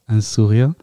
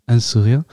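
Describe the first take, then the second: No difference in how they are said.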